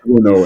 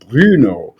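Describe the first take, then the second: First: The first vowel is a plain oo. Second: The first vowel is a rounded front u. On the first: "they called it Bruno instead" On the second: "it would have technically been pronounced Bruno"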